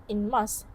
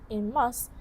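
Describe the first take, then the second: The two takes are said the same way.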